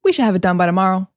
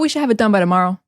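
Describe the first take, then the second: First: 'Should' shrinks to a 'sh' sound. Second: 'Should' shrinks to a 'sh' sound.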